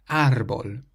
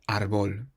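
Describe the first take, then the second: First: The stress is on the first syllable. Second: The stress is on the last syllable. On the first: The speaker calls it right. "it has an accent over the A" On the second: The speaker calls it wrong.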